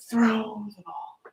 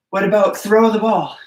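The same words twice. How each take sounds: First: Slow whispered throw the ball. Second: Said in the usual way. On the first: Shown as a demonstration. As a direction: whisper it slowly to the kids. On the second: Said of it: "demo for kids".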